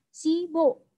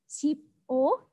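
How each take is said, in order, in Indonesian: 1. Kedua suku kata disambung menjadi satu kata. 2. Kedua suku kata diucapkan terpisah.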